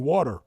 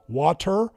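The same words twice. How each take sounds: First: The middle consonant sounds like a D. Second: The middle consonant is a clear T sound. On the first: "they say water" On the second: "you don't hear Americans saying water"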